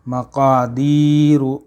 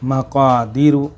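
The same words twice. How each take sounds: First: The long 'ee' vowel is held longer. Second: The long 'ee' vowel is cut short. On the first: The speaker calls it right. "सही कैसे पढ़ना है" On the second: The speaker calls it wrong. "इस याही को हम कट कर देते हैं"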